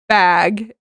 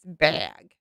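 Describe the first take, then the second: First: The word is said in a plain way. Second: The word is said in a silly way.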